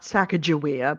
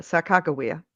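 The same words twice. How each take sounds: First: Sacagawea with a J sound in the middle; wrong pronunciation. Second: Sacagawea with a hard G, no J sound; correct pronunciation. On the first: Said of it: "correct pronunciation of her name, not Sacagawea". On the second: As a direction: say Sacagawea with a hard G, "sa-KAH-guh-wee-uh". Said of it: "correct pronunciation of her name". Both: Shown as a demonstration.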